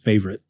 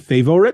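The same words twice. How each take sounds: First: The middle O is dropped. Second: The middle O is clearly pronounced. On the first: "instead of favorite" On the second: "I should always include that O in, in my enunciation"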